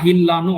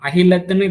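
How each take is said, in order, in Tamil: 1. கடைசி 't' ஒலி விடப்படுகிறது. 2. கடைசி 't' ஒலி உச்சரிக்கப்படுகிறது. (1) "சம்டைம் ஃபுல் ஸ்டாப்போட வந்து நிற்கும் போது அது ஒரு ப்ரொனவுன்சியேஷன்ல கூட அது வராது" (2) "அகிலத்துன்னு இத வாசிக்கலாம்"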